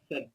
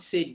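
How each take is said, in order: First: The vowel is short, like 'sed'. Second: The vowel is long, like 'sayed'. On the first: The speaker calls it right. "স্যাড স্যাড বলতে হবে" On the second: The speaker calls it wrong. "সেইড সেইড বলা যাবে না"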